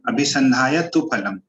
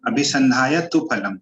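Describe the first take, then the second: First: The vowel in 'tu' is short. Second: The same.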